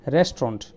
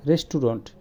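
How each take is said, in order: First: "রেস্টুরেন্ট" squeezed to restront, middle vowel dropped; correct pronunciation. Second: "রেস্টুরেন্ট" said resturont, all syllables; the teacher shows "রেস্টুরেন্ট" as resturont, all syllables said; common mispronunciation. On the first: The teacher models "রেস্টুরেন্ট" as restront. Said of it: "এটা হবে". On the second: Usual Bangla way of saying রেস্টুরেন্ট. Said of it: "আমরা বলি". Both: Shown as a demonstration.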